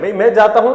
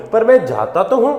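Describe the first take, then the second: First: Said in the usual way. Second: "मैं जाता तो हूं" with तो pressed, set against the plain "मैं जाता हूं"; contrast: add weight on तो; stress on तो. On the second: Shown as a demonstration. Teacher contrasting plain and emphatic sentence, stressing तो. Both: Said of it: "यहाँ पे एम्फेसाइज कर रहे हैं".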